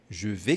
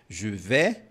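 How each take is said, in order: First: The vowel in 'vais' is more closed. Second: The vowel in 'vais' is more open. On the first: "um pouco mais fechado" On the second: "um pouco mais aberto"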